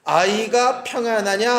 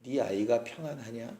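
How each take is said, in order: First: Slow, even reading of 아이가 평안하냐, rising at the end; slow scripture reading. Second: 네 아이가 평안하냐 said much softer and lower, weighed down; hushed heavy question. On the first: Shown as a demonstration. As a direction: read 아이가 평안하냐 slowly as part of the verse. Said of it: "시작". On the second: Retold or imitated. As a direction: drop the voice and ask 네 아이가 평안하냐 as if it hurts. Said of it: "맨 마지막이 문제입니다".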